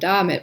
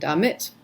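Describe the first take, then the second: First: The stress is on the first syllable. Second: The stress is on the second syllable. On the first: It contrasts da- with wo-. The speaker calls it wrong. "to contrast them, I say ... damit" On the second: It is the normal pronunciation. The speaker calls it right. "but it's really ... damit"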